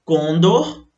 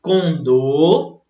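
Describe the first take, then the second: First: Condor stressed on the first syllable, CON-dor; the incorrect "Condor", short second syllable; paroxytone stress. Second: Condor stressed on the last syllable, con-DOR; the correct "condor", weight on DOR; oxytone stress. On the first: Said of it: "poderiam pronunciar como paroxítonas". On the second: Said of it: "O certo seria". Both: Shown as a demonstration.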